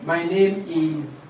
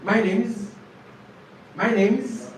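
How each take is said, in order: First: "My name is" slow, IS a word apart; full form. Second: "My name is" joined as "my name's"; contracted form. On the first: Teacher reading the first template to students, full form. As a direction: draw out each word, IS uncontracted. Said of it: "the first template right here". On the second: Teacher modelling the second template twice, contracted form. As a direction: shorten IS to a z on NAME. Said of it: "use the second ap". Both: Shown as a demonstration.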